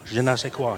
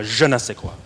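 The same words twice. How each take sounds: First: Said in the usual way. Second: Accent the "je" in "je ne sais quoi"; stress on JE. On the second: Shown as a demonstration. Preacher showing off practiced French to the congregation, stress on "je". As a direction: lean on the opening "je", then let the rest follow. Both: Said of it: "You have to accent the je".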